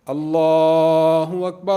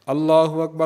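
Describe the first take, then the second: First: It is said slowly, with pauses. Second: It is said quickly, without pauses.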